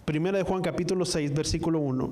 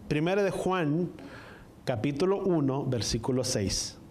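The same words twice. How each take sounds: First: Said in the usual way. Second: Careful citation broken by pauses; más despacio, slowed down. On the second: Real, not acted. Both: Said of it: "Más despacio para que me puedan entender".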